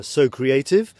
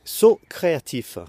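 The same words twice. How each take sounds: First: "So Creative" said as the English phrase, in a British accent. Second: "Saut créatif" said as French, "saut" like "so", "créatif" with a French r; French version. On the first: Explaining his page's pun to viewers, British accent. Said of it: "avec, euh, mon accent, euh, très English". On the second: Giving viewers the French version of his pun, French pronunciation. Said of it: "et en français". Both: Shown as a demonstration.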